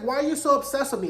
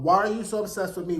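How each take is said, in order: First: High, quick mock exasperation. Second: Spoken lyric in a normal register. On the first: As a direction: act out a pestered man, pitched up and fast. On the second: Retold or imitated. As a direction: deliver the song line evenly, unhurried. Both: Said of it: "like the [name] song".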